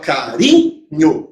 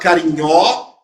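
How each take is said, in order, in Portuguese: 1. O acento tônico cai na sílaba do meio. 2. O acento tônico cai na última sílaba. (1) "você fala carinho" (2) "você não fala carinhó"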